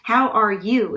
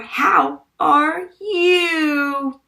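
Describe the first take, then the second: First: The phrase is said briefly and plainly. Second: The phrase is stretched out and dramatized. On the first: The speaker calls it right. "is how we say it" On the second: The speaker calls it wrong.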